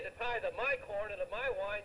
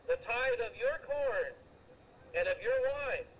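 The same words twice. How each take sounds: First: "my" pointed out as the wrong word; stress on my. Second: "your" stressed, slow and deliberate. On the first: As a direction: hit "my" in "the tithe of my corn". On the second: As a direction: lean on "your" in "the tithe of your corn". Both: Shown as a demonstration. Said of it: "he didn't say".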